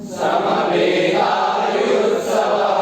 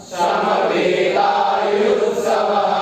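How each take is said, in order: The two takes are said the same way.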